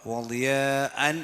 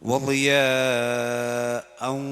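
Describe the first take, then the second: First: The long vowel is cut short, barely stretched. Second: The long vowel is held for several beats. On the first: The speaker calls it wrong. "എന്നല്ല" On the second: The speaker calls it right. "ളിയാ എന്നുള്ളിടത്ത് നീട്ടാണ്ട് അഞ്ചോ ആറോ അക്ഷരത്തിൻ്റെ നീളം നീട്ടണം"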